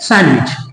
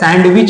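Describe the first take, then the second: First: The d is left silent. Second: The d is pronounced. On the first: The speaker calls it right. "डी silent है" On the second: The speaker calls it wrong. "सैंडविच नहीं है"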